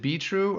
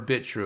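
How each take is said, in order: First: The first syllable is 'bee' with no 't'. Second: The first syllable is 'bit' with a 't'. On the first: The speaker calls it right. "I actually like that pronunciation better" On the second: The speaker calls it wrong. "instead of Bit True"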